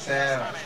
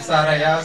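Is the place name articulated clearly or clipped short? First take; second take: clipped; clear. First: The name is clipped and poorly articulated. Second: The name is articulated fully and clearly. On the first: The speaker calls it wrong. "c'est pas Serra" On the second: The speaker calls it right. "Il faut bien articuler. C'est Saraya"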